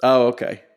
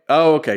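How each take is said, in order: First: Said in the usual way. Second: Higher, louder "Oh" as it clicks; sudden realization. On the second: Real, not acted. Cohost suddenly recalls the video, realizing aloud. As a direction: catch on all at once with a loud "Oh".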